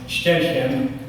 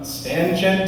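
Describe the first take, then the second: First: The word is said with German sounds. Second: The word is said with English spelling sounds. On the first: The speaker calls it right. "it's pronounced Ständchen" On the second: The speaker calls it wrong. "I read it how it was spelled"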